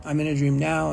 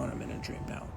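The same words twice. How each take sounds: First: Said in the usual way. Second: Fading whisper. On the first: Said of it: "repeating the practice phrase". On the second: Shown as a demonstration. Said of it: "repeating phrase, fading to whisper".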